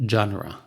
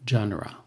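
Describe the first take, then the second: Both takes have the same delivery.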